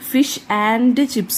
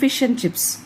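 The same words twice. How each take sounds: First: The word 'and' is said fully and stressed. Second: The word 'and' is reduced to a short 'n'. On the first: "ആൻഡ് എന്ന് stress ചെയ്ത് പറയണ്ട" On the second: "ആ എൻ എന്ന് മാത്രം പറഞ്ഞാൽ മതി"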